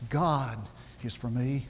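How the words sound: The word 'God' is stressed. It is God, and no one else, who is for me. "And you need to say those emphasizing each word. Say it four times"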